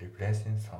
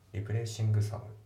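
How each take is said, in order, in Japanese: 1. 'replacing'の最後のgはほとんど聞こえません。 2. 'replacing'の最後のgははっきり発音します。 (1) "っていう風になってますね" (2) "じゃなくて"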